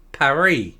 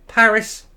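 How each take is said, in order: First: Paris the French way, with a silent S; slow French-style "Paris", ending on ee; French pronunciation of Paris. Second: Paris the English way, with a sounded S; anglicised "Paris", stressed on the first syllable; English pronunciation of Paris. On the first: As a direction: say "Paris" as pa-REE, drawn out. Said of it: "You see the difference". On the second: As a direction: say "Paris" as PARR-iss, slowly. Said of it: "We say Paris, not Paris". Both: Shown as a demonstration.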